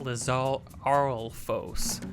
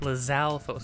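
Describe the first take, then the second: First: It is said with an added R sound. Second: It is said with no R sound. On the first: The speaker calls it wrong. "I thought there was an R in there" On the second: The speaker calls it right. "Lizalfos, not"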